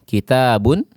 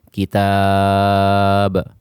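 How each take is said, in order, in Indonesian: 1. Kata ini berakhir dengan vokal ditambah n. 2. Kata ini berakhir dengan konsonan mati.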